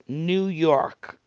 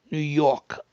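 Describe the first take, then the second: First: New York with the R fully sounded; "New York", R clearly pronounced; careful standard pronunciation. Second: New York accent, dropping the R in "York". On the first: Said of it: "it's supposed to be New York". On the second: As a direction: say "New York" the New Yorker way, R-less. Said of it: "without the R". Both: Shown as a demonstration.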